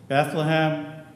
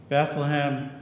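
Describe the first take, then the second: The two takes are said the same way.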